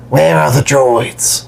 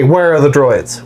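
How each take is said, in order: First: It is said in Boba Fett's voice. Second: It is said in a plain voice.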